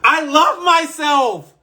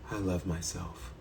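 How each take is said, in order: First: It sounds heartfelt and deeply meant. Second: It sounds flat and unconvincing.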